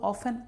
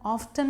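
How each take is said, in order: First: The word has no 't' sound in it. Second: The word has a clear 't' sound. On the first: "आप ऑफन बोलते हैं" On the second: "ऑफ्टन में बदल जाएगा"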